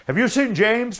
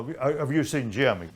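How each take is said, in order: First: High, loud urgent question; a worried chase driver asking after his man; much higher, louder eager ask; anxious asking. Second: Said in the usual way. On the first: Retold or imitated. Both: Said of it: "the guy that's on the coast side says".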